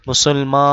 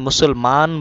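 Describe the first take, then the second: First: The final n is only a nasalized vowel. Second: The final n is pronounced as a full consonant. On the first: The speaker calls it right. "নুন হলো গুন্না করতে হবে, নাকে নিতে হবে" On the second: The speaker calls it wrong. "এখানে মুসলমান বলবেন না"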